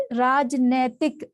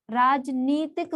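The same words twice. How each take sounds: First: राजनैतिक with "nai" in the middle; wrong form. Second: राजनीतिक with a long "nee"; correct form. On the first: Teacher citing the error, राजनैतिक with an "ai" vowel. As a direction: say नै clearly in राजनैतिक. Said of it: "ये नहीं होता". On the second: Teacher giving the right word, राजनीतिक with slow long "ee". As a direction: slowly stretch नी in राजनीतिक. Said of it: "राजनीतिक होता है". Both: Shown as a demonstration.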